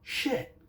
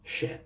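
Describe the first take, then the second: First: The word is said in an angry way. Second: The word is said in a mild way. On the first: "sometimes you sound more angry" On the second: "Sometimes it's just shit"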